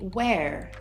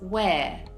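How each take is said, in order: First: It ends with a clear R sound. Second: It ends without an R sound. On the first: "you actually hear the R sound at the end" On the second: "I don't say where with a clear R"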